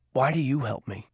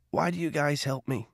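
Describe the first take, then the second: First: Softer, with "do" pushed and falling; quiet question pressing "do"; stress on DO. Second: Softer, with WHY leaned on and falling; quiet question hanging on "Why"; stress on WHY. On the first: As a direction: lean on "do" as a pointed demand. Cole asks Garvey directly. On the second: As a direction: press the word "Why", then let it drop. Cole asks why they help. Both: Acted.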